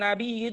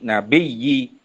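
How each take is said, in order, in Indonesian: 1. Diucapkan dengan hamzah, tanpa penggandaan. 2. Diucapkan dengan bunyi y ganda. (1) "baca dengan hamzah" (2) "baca dengan tasydid"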